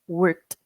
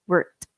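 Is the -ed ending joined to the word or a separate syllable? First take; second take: joined; joined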